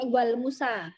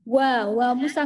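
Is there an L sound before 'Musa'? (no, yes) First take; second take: yes; no. First: It is said with an L before Musa. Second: It is said without an L before Musa. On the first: The speaker calls it wrong. "enggak pakai wal Musa" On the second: The speaker calls it right. "Dan wa Musa"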